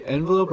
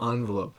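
First: "envelope" starting EN, as in "end"; EN pronunciation. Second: "envelope" starting AHN, like "on"; ON pronunciation. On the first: Asking co-host which way he says it, "envelope" opening with EN. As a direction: say "envelope" with an EN first syllable. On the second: Asking co-host which way he says it, "envelope" opening with ON. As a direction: say "envelope" as ON-velope. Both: Shown as a demonstration. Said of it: "do you say envelope or envelope".

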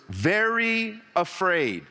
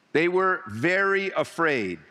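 First: "very afraid" slowed and weighed word by word; stress on very afraid. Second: "They were very afraid" said slowly, stress on "were"; slow repeat. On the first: Preacher stressing "very afraid" to the church. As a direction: lean hard on "very afraid", slow. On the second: Preacher repeating the key words to the church. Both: Shown as a demonstration. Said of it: "and mark these words".

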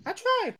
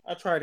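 First: High mock lament. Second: Said in the usual way. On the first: Shown as a demonstration.

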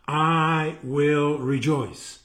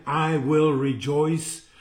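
First: Very slow, each word drawn out; slow, emphatic repeat. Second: Measured scripture reading; verse read aloud. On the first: Preacher repeats the verse to listeners, very slow and emphatic. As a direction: stretch every word of the declaration. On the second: Preacher reads scripture to listeners, measured reading. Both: Shown as a demonstration.

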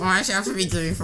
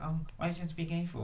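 First: Whiny nerd troll voice. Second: Whiny nerd troll voice; mock a whiny online nerd. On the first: Retold or imitated. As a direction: echo the whiny nerd impression. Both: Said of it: "I love your nerd voice".

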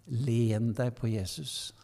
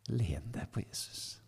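First: Said in the usual way. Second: Whisper. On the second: Retold or imitated. Pastor repeating comfort to a tired youth, whispered. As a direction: repeat it in a soft whisper, much softer. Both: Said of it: "Så sa jeg det bare på den måten".

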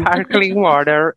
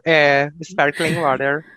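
First: "sparkling water" said slowly in English; English pronunciation. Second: "é, sparkling water" lower, slow confirmation; repeated English term. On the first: ("sparkling water" em inglês, devagar) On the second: (repetindo "sparkling water" mais grave) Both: Shown as a demonstration.

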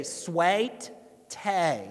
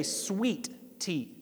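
First: Slow Southern drawl, sweet tea stretched to swaIt tay; Southern accent drawl. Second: Said in the usual way. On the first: Shown as a demonstration. Pastor mimicking how Southerners say it, slow Southern drawl. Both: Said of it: "they tend to add syllables to words".

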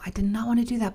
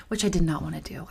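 First: Full voice, weight on "wanna"; emphatic repeat. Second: Breathy whisper, half-laughing; whispered aside. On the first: Repeats the aside aloud. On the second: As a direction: drop it to a whisper: "which I did not wanna do". Aside while laughing about home club. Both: Real, not acted.

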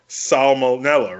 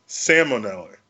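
First: "Salmonella" said slowly with the L sounded, "sal-mon-ella". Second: "salmonella" said "sammonella", the L dropped like salmon; "salmonella" with a silent L, "sam-uh-nella"; mock silent L. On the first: Explaining spelling to friends, slow careful pronunciation. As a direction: draw "Salmonella" out, every letter clear. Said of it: "the same way". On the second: Pointing out the silly logic, mock pronunciation. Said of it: "So why is it not". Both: Shown as a demonstration.

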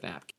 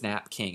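First: Said in the usual way. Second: "Nap King" as two full words; typo pronunciation. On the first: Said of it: "instead of Nap King". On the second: Shown as a demonstration. Explaining the typo, "Nap King" said as nap plus king. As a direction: say "Nap King" with a clear king at the end. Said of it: "There's a typo that says".

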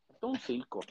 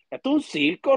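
First: Muttered quiet. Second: Exclaimed loud. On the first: Repeats it, muttered aside. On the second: Outburst about the federal "circus. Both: Real, not acted.

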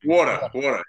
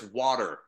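First: "water" with a punched aw, WAW-tuh; New York vowel in "water". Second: "water" with an open ah, WAH-der; slow open vowel in "water"; Canadian "water". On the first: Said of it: "In, in New York". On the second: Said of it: "Up here, it's". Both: Shown as a demonstration.

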